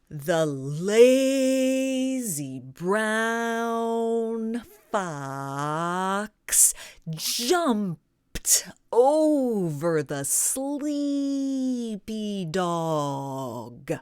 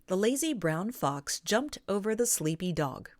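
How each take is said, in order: First: Vowels are stretched and every syllable is exaggerated. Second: It is spoken at a normal, natural pace.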